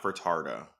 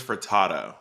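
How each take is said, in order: First: "Furtado" with an added R, fur-TAR-doh; mimicked mispronunciation. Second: "Furtado" with no R sound in the middle, fur-TAH-toh; corrected pronunciation. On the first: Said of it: "Her name is [name], not [name]". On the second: Shown as a demonstration.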